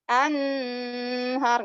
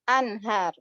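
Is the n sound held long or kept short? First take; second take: long; short. First: The n sound is held long. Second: The n sound is kept short. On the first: The speaker calls it wrong. "nggak boleh anhar" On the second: The speaker calls it right. "Harus anhar, satu harokat"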